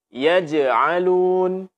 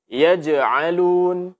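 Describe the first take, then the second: Both takes have the same delivery.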